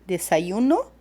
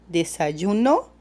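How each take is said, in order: No difference in how they are said.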